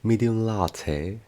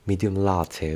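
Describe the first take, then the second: First: It is said in a very posh British accent. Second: It is said in a standard British accent. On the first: The customer speaks upper-class English. "이런 식으로 굉장히 포시 악센트를 사용하시는 분들" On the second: The customer speaks everyday standard English. "평상시 알피 발음을 사용하시는 분들은"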